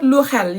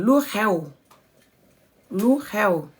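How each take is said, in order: First: "lu xel" with an L at the end; ending "xel" on L instead of W; wrong lu xel. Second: "lu xew" ending on a W glide; correct lu xew. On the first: Teacher shows the mistake, "lu xel" ending in L. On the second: Teacher models the right form, "lu xew" with a W. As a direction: close "xew" with a W, no L. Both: Shown as a demonstration. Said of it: "Not lu xel".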